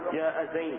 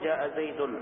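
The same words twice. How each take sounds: First: The last word ends without a final -n sound. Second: The last word ends with a final -n sound. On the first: The speaker calls it right. "تقف وتحذف التنوين" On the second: The speaker calls it wrong. "لا تقول"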